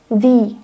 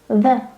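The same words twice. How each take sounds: First: The word ends in a long ee sound. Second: The word ends in a short uh sound. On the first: The next word starts with a vowel. "we are pronouncing as the" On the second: The next word starts with a consonant. "we are pronouncing article as the, with a"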